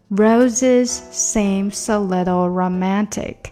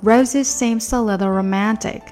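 First: The phrase is said at a slower pace. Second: The phrase is said at a faster pace. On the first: "两句话连起来" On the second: "再加快点"

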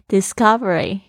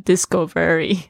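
First: It is said as one smooth word. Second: It is split into two parts, disco and very. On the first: The speaker calls it right. "我希望我的学生不要念错了哈。" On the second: The speaker calls it wrong. "发音还发错，就很尴尬，就这样子discovery。disco 是跳舞的舞厅嘛，very 是很的意思"

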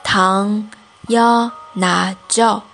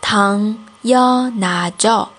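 No difference in how they are said.

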